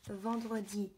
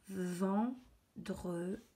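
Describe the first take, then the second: First: Said in the usual way. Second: "Vendredi" very slowly, with gaps between syllables. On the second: Shown as a demonstration. Teacher rereading the written word, slowly split. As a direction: stretch ven, dre, di apart.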